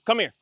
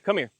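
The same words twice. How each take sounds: First: The voice is firm and commanding. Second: The voice is gentle and soft.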